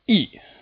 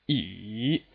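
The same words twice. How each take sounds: First: The pitch falls sharply from high to low. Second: The pitch dips low, then rises again. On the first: "the sharp downward striking tone" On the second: "it starts from two... drops to one... all the way up to four"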